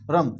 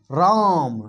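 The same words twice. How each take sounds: First: Said in the usual way. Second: राम with a long drawn आ. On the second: Shown as a demonstration. Teacher contrasting रम and राम for students, long vowel. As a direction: say राम stretching the vowel against रम. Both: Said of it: "दोनों में उच्चारण कुछ लग रहा है".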